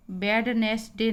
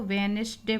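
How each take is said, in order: First: वेडनेसडे spelt out as 'wed-nes-day', D sounded; wrong pronunciation. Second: वेडनेसडे as 'wenis-day', first D silent; correct pronunciation. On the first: Teacher shows what not to say, first D pronounced. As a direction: pronounce every letter of वेडनेसडे, first D included. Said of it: "नहीं बोलते हैं इसको". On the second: Teacher gives the right reading, first D silent. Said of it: "इसमें डी silent होता है". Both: Shown as a demonstration.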